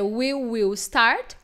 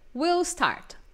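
First: Both words, we and will, are said in full. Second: We and will merge into one contracted syllable. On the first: "Você pode dizer we will start" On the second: "para não ficar muito we we, né? Aí você pode dizer will"

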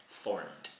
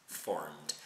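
The two takes are said the same way.

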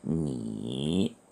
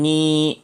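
First: The syllable is said with the third tone. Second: The syllable is said with the first tone. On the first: "제3성으로 읽으면 니" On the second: "제1성으로 읽으면 니"

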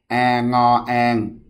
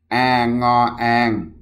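Both takes have the same delivery.

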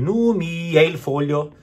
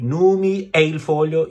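First: The vowels flow together without any glottal stop. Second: A glottal stop separates the vowels between words. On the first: The speaker calls it right. "Again, connect" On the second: The speaker calls it wrong. "you cannot do"

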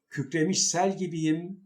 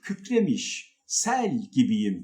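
First: The phrase flows on without a pause. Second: There is a pause after the first word. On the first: The speaker calls it right. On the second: The speaker calls it wrong.

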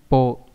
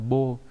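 First: The syllable begins with a voiceless p sound. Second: The syllable begins with a voiced b sound. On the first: The speaker calls it right. "mà phải là p nhá" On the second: The speaker calls it wrong. "không phải là bô"

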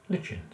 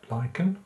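First: The word is said the British way. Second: The word is said the American way. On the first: "UK pronounce it lichen" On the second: "US pronounce it lichen"

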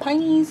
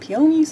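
First: The word has two syllables, pie-nees. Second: The word has three syllables, pee-uh-nees. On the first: This is how the speaker's Southern family says it. "some people call them pineys" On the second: This is how some other people say it. "Some people call them peonies"

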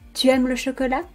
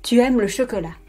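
First: The voice rises at the end. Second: The voice falls at the end.

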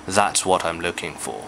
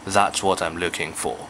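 No difference in how they are said.

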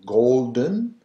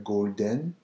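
First: It is said with an English accent. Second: It is said with a French accent. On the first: "instead of going Golden" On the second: "it becomes Le Golden"

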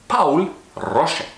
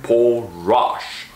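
First: The name is said with a German pronunciation. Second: The name is said with an American pronunciation. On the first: The speaker calls it right. "because he was German, we're gonna say it right" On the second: The speaker calls it wrong. "that's the American pronunciation of his name"

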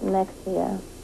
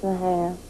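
First: The middle consonant is a 'ks' sound. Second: The middle consonant is an 'h' sound. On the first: The speaker calls it wrong. "People pronounce it Mexia. Because it's spelled M-E-X-I-A" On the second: The speaker calls it right. "But it's Mahia"

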